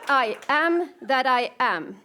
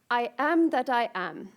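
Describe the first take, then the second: First: The voice sounds sure and convinced. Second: The voice sounds doubtful and unconvinced. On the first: The speaker calls it right. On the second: The speaker calls it wrong. "that didn't sound very convincing"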